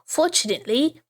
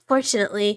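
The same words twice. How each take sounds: First: It is said in a put-on British accent. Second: It is said in the speaker's normal accent. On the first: "I should be doing a bad British accent, huh?" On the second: "never mind"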